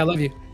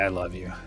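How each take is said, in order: First: It is said quickly and casually. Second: It is said slowly and tenderly.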